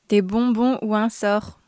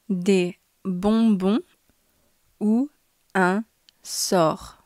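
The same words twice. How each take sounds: First: The sentence is spoken at normal speed. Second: The sentence is spoken slowly. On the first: "twice at normal speed" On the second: "once slowly"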